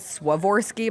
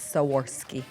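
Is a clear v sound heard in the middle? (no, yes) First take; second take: yes; no. First: The middle consonant is a clear v sound. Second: The middle consonant is not a v sound. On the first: The speaker calls it wrong. "I've been calling it Swarovski my whole life because there's a V in it" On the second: The speaker calls it right. "but it's not. It's Swarovski"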